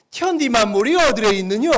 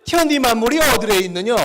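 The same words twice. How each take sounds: First: Loud North Korean dialect reading. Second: Loud North Korean dialect demo; hammed-up northern dialect reading. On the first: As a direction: read it with a North Korean lilt. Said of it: "북한 사투리를 쓴다고 생각하고 읽으시면". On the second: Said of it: "또 느낌이 살죠?". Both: Shown as a demonstration.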